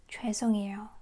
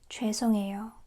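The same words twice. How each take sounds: Both takes have the same delivery.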